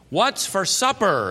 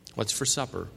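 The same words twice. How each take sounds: First: It is said very loudly. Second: It is said at a normal volume. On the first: "very loudly" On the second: "in a normal voice"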